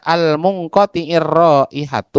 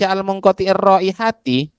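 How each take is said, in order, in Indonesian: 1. Kata terakhir berakhir dengan vokal 'u'. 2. Kata terakhir berakhir dengan vokal 'i'. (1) "ya sibhul mu mudhof" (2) "berarti itu adalah mu mudhof"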